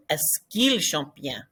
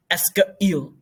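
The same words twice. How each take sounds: First: "Est-ce qu'il" run together smoothly as one sound, "esk-il"; smooth blended. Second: "Est-ce qu'il" chopped apart like a hiccup; choppy unblended. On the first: Teacher models the correct blended elision, softly. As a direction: glide "Est-ce qu'il chante bien?" without a break. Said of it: "So you want it to blend". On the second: Teacher mocks the choppy unblended way, like hiccups. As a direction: break "Est-ce qu'il" into jerky separate bits. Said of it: "Sounds like you have the hiccups". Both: Shown as a demonstration.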